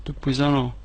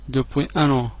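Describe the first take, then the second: No difference in how they are said.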